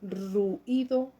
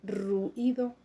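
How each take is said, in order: First: The 'u' and 'i' are split into two syllables. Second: The same.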